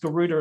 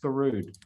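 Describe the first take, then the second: First: The name ends with a final vowel sound. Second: The name ends on the consonant d. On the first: The speaker calls it wrong. "it's actually not pronounced Garuda" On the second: The speaker calls it right. "It's pronounced Garud"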